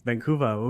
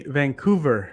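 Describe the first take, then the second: First: Imitated Boston accent. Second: VANCOUVER with a clear final R; slow VANCOUVER, sounding the R at the end; Canadian pronunciation. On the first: Canadian guest echoing the host's Boston accent. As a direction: imitate Boston VANCOUVER, no final R. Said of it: "Obviously, that's a Boston accent". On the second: Shown as a demonstration. Canadian shows how they say VANCOUVER, final R sounded. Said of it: "We say Vancouver".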